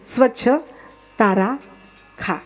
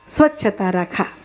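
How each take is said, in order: First: It is split as 'swachh tara kha'. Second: It flows as 'swachhata rakha' with no break.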